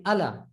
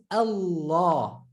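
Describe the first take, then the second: First: Allah with a short light L; English reading. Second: Allah slowly, with a long held L; doubled L. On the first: Teacher showing how not to say Allah, English reading. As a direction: stress the first syllable of Allah, quick L. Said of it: "that's why we don't say". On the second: Teacher correcting the English reading of Allah, doubled L. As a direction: hold the L in Allah, open final vowel. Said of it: "But we know it's". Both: Shown as a demonstration.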